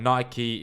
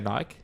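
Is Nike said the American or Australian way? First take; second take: American; Australian. First: It is said the American way. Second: It is said the Australian way.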